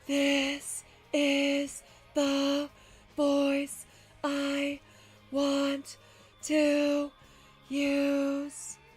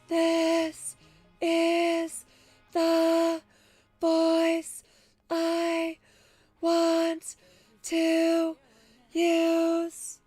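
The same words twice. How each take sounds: First: It is said at a low pitch. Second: It is said at a middle pitch.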